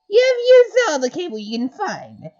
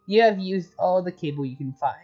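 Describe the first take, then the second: First: It is said in a put-on mayor voice. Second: It is said in his normal voice.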